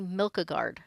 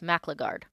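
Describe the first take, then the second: First: The name begins with a 'milk' sound. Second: The name begins with a 'mac' sound. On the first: The speaker calls it wrong. "I always want to say Milkagard, and it's not" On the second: The speaker calls it right. "It's Macligard"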